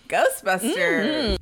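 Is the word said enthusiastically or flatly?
enthusiastic. The word is said with lively enthusiasm. The speaker calls it right.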